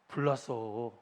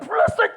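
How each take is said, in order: First: It is said in a calm, flat way. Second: It is said loudly and urgently, like shouting. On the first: The speaker calls it wrong. "이렇게 말하는 사람 없죠?" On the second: The speaker calls it right. "이래야죠"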